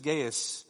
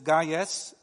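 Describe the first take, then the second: First: The name is pronounced the English way. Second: The name is pronounced the Latin way. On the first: "English is Gaius" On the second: "Latin is Gaius"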